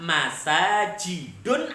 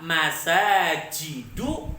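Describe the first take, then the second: First: The word ends with an added n sound. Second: The word ends on a vowel, without n. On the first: The speaker calls it wrong. "Tapi pemirsa tidak boleh membaca dengan apa? ... Tidak boleh" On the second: The speaker calls it right. "Bolehnya apa?"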